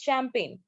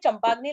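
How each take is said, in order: First: It is said smoothly as sham-pain. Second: Each letter is sounded out, like chum-pag-nee. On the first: The speaker calls it right. "It's champagne" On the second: The speaker calls it wrong. "मैंने चंपाग्नि लाया है"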